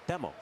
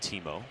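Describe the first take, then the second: First: The first vowel sounds like 'ay'. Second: The first vowel sounds like 'ee'. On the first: The speaker calls it right. "the proper pronunciation is" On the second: The speaker calls it wrong. "a lot of people still do call him Timo, but the proper pronunciation"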